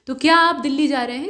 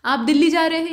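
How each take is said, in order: First: क्या आप दिल्ली जा रहे हैं asked as a question, rising at the end; question tune. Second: Said in the usual way. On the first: Shown as a demonstration. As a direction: ask it, voice lifting on the last words. (प्रश्नवाचक लहजा, अंत में सुर ऊपर उठता हुआ) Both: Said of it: "यहाँ प्रश्न पूछने का भाव है".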